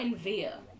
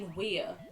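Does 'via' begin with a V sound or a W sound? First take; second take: V; W. First: Via begins with a V sound. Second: Via begins with a W sound. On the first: The speaker calls it wrong. "not in via" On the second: The speaker calls it right. "pronounce it as a W"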